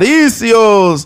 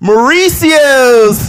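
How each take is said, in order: First: It is said with a Mexican Spanish accent. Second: It is said with a plain American accent.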